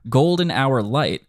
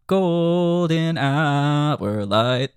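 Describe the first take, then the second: First: "Golden hour light" spoken higher and slower, in natural rhythm; spoken lyric. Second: Sung high with very long held notes; sung, blown-up rhythm. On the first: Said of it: "how it might sound more conversationally". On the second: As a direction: sing it out, stretching each syllable. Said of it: "maybe blow up the rhythm". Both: Shown as a demonstration.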